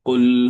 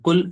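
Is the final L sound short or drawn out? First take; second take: drawn out; short. First: The final L sound is drawn out longer. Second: The final L sound is short and clipped. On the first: The speaker calls it right. "കുറച്ചുകൂടെ നീട്ടി കുറച്ചുകൂടെ എക്സ്റ്റെൻഡ് ചെയ്തിട്ട് പറയണം" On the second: The speaker calls it wrong. "ഖുൽ എന്ന് പറഞ്ഞ ഖുൽ അത്ര പോരാ"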